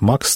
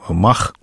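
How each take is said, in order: First: The name ends with a 'ks' sound. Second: The name ends with a throaty 'kh' sound. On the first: The letters are read as Latin letters. "Почему-то все говорят «Макс»" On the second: The letters are read as Russian letters. "но мы по-русски же, я надеюсь"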